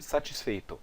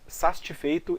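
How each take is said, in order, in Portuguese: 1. Os sons consonantais mantêm a ordem usual. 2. Dois sons consonantais trocam de lugar dentro da palavra. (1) "em vez de satisfeito" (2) "ele diz satisfeito"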